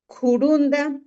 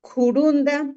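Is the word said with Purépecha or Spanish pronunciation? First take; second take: Purépecha; Purépecha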